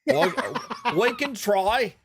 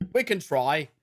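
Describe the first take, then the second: First: High-pitched, laughing stab at British; playful fake British accent, pitched up; attempted British accent. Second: Said in the usual way. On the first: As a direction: try on a shaky mock-British accent. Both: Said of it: "do it in a British accent".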